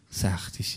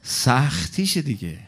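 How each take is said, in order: First: سختیشه repeated as a soft breathy whisper; whispered echo. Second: Said in the usual way. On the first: Shown as a demonstration. Preacher echoes سختیشه to the crowd in a whisper.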